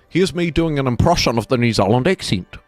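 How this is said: It is said in an exaggerated New Zealand accent. "This is what we sound like"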